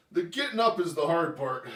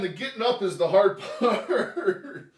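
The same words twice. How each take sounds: First: Said in the usual way. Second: Slow, laughing through the strain. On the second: Real, not acted. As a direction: laugh while heaving up. Getting up from floor.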